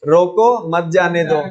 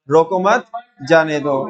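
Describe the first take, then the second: First: "रोको", brief break, then "मत जाने दो" run together; pause after रोको. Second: "रोको मत" together, break, then "जाने दो"; pause after मत. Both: Shown as a demonstration. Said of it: "वो लिखने का तरीका".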